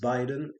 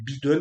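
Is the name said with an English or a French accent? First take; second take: English; French. First: The name is said with an English accent. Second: The name is said with French pronunciation. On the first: "J'ai à peu près un accent correct" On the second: "moi je l'appelle Biden"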